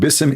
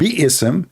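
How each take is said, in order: First: It is said as one short syllable, bism. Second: It is said as two syllables, bi-ism. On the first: The speaker calls it wrong. "The word bism is not exist in Arabic ever" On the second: The speaker calls it right. "The word bi'ism is what exists"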